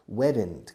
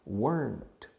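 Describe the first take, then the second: First: It is said the way Spanish speakers say it. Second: It is said the native English way. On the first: The speaker calls it wrong. "como decís aquí muchos" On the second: The speaker calls it right. "Notice the pronunciation"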